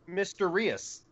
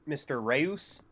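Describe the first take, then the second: First: It is run together to sound like 'mysterious'. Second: It is read as a plain surname. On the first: The pun is understood. The speaker calls it right. "wait, Mr. Rios. Mysterious!" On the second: The pun is missed. The speaker calls it wrong. "when I read it, I pronounced it like Mr. Reus"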